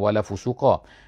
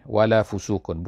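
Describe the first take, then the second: First: The final word ends with a short 'a'. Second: The final word ends with an 'un' sound. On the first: This is the usual reading of the verse. "bukan wala fusuqa" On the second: This is an alternative reading of the verse. "kemudian ada wala fusuqun"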